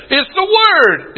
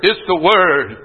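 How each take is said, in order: First: "Word" stretched slowly on a high pitch; high, drawn-out emphasis on "Word"; stress on Word. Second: Low, falling close on "Word"; settled restatement. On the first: Preacher driving home his point to congregation, "Word" high and drawn out. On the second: Preacher repeating his point to congregation, "Word" low and settled. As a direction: drop the pitch and let "Word" settle. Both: Real, not acted.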